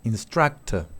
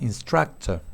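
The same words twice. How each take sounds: No difference in how they are said.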